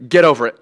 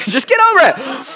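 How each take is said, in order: First: Said in the usual way. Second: High-pitched, laughing jab; teasing squeal of tough love; joking bluntness. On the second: Pretend. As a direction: toss it out playfully, voice jumping up. Joking repeat after mock apology.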